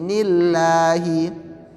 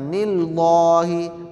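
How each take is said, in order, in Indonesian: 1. Bunyi l-nya tipis dan ringan. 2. Bunyi l-nya tebal dan berat. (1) "lam jalalah yang dibaca tipis"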